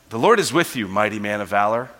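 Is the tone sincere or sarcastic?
sincere. It is said sincerely and earnestly.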